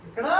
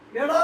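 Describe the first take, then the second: The two takes are said the same way.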